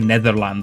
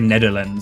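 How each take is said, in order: First: The middle consonant is a 'th' sound. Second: The middle consonant is not a 'th' sound. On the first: "I don't say Netherlands" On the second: "My my my tongue just doesn't want to say the th in that in that word"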